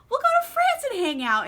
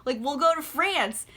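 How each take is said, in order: First: Much higher, louder, gushing "go to France"; mock eager plea. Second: Said in the usual way. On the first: Rochester begging Jane to run off, hammed-up high plea. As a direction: pitch the repeat way up like a swooning suitor. Retelling Rochester's proposal, second take.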